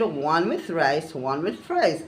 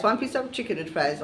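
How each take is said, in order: First: Slow, each item set apart; spelled-out correction. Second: Said in the usual way. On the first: Retold or imitated. Customer slowly correcting a wrong order, item by item. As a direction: lay it out word by word like to a child.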